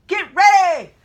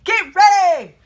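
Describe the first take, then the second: First: Loud shouted reply; group echo shout. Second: Loud barked command at the door; jump master shout. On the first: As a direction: shout it back like a trainee. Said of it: "Everyone had to repeat". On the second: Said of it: "he turns around and says". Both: Retold or imitated.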